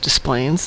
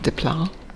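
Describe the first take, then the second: First: It is pronounced the local Chicago way. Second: It is pronounced in a French-style way. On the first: This is how the name is said locally. The speaker calls it right. "Desplaines is pronounced Desplaines" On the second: This is how the name would be said elsewhere. The speaker calls it wrong. "instead of"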